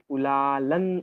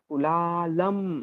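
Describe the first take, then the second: First: The word ends with an n sound. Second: The word ends with an m sound. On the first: "कुलालन असा उच्चार होईल. म्हणजे अनुस्वाराचा उच्चार हा न" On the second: "कुलालम असा उच्चार करतो म्हणजे तिथे अनुस्वाराचा उच्चार आपण म प्रमाणे करतो"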